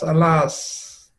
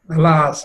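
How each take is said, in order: First: Softer, drawn-out, despairing alas; fading lament. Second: A cry of grief, slightly raised; mock lament. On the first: Acted. Jatila's lament trails off, softer and despairing. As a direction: let the alas sink into a moan. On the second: Jatila laments over Radha, in mock grief. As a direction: wail the word once. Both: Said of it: "She says".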